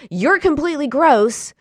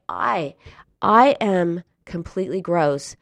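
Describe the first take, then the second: First: Imitating her easy, loud self-insult; higher, louder, hurl YOU'RE COMPLETELY GROSS with no problem; fired-up self-hatred. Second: Imitating someone struggling to get the confession out; words sticking. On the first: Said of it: "She was all fired up, full on hating herself". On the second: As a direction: falter after I, pause, then force it. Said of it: "the words stuck in her throat".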